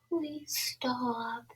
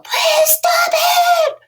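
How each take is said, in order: First: It is said in a weak, timid voice. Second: It is screamed very loudly and angrily.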